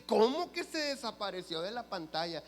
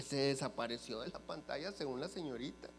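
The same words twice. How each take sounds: First: Higher, louder voice of mock disbelief; incredulous question. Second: Said in the usual way. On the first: Accountant questions her client about the screen, incredulous. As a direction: imitate an accountant who can't believe it.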